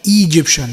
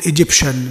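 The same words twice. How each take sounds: First: The first vowel is a long 'ee' sound. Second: The first vowel is a short 'i' as in ink. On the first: The speaker calls it wrong. "مش هنقول Egyptian نو" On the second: The speaker calls it right. "هنقول Egyptian"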